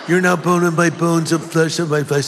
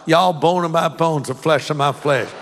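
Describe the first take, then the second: First: It is said in a California accent. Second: It is said in a Southern accent.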